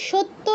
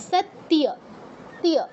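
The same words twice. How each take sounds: First: সত্য as shotto, doubled t, no y; wrong Bengali form. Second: সত্য as sat-tiya, y clearly heard; correct sounded y. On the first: Teacher warns students off this, সত্য as shotto. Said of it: "এটা কিন্তু সত্য হবে না". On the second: Teacher corrects for students, সত্য as sat-tiya. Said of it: "এরকম". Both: Shown as a demonstration.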